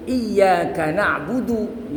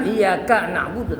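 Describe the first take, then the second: First: "iyyaka" slow, with a long yaa and short ka; correct reading. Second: "iyyaka" with a short ya and a stretched final ka; wrong reading. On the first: Teacher correcting the pupils' reading, correct slow "iyyaka". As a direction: hold the ya in "iyyaka", keep ka short. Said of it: "tapi iyyaka na'budu". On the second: Teacher showing pupils what to avoid, wrong reading of "iyyaka". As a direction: lengthen the wrong syllable in "iyyaka", the ka. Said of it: "Jangan iyyaka na'budu". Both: Shown as a demonstration.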